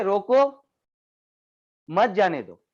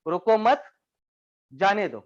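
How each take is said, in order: First: "रोको" raised, long pause, then "मत जाने दो" falling; pause after रोको. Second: "रोको मत" together on a rise, pause, then "जाने दो" falling; pause after मत. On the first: Trainer showing how a comma changes meaning, pause after "रोको". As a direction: break after "रोको", keeping "मत जाने दो" together as one phrase. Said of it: "दोनों कहने के तरीके". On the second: Trainer showing the comma's second meaning, pause after "मत". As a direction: join "रोको मत", break, then let "जाने दो" drop. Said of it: "दूसरे का मतलब बदल गया". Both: Shown as a demonstration.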